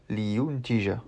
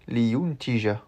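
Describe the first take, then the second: No difference in how they are said.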